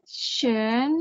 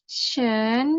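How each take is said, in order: Both takes have the same delivery.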